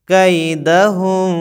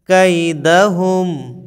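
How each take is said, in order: Both takes have the same delivery.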